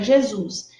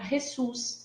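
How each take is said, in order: First: Jesus with a zh onset and z in the middle, "zheh-ZOOS"; Portuguese pronunciation. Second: Jesús with a breathy h sound at the start, "heh-SOOS"; Spanish pronunciation. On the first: Teacher translating the Spanish word for students, Portuguese-pronounced Jesus. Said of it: "Jesus em português". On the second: Teacher giving students the Spanish example, Spanish-pronounced Jesús. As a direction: say Jesús the Spanish way, h onset and s in the middle. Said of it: "Observem aí também a palavra". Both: Shown as a demonstration.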